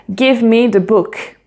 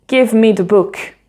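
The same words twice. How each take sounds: No difference in how they are said.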